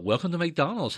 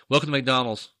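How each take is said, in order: First: It is said in a warm, polite way. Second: It is said in a curt, rude way.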